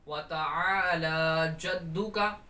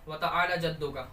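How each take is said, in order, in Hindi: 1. ta'ala में स्वर लंबे खींचकर बोले जाते हैं। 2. ta'ala में स्वर छोटे काटकर बोले जाते हैं। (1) "ये दुरुस्त तरीका है" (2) "अब इसमें गलती करते हैं"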